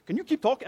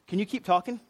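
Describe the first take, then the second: First: Higher-pitched mock Northerner voice; funny voice. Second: Said in the usual way. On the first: Food court staff amused by his accent, funny mock voice. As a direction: badly imitate their funny way of asking. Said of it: "they said it in this funny kind of voice". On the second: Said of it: "actually, they said".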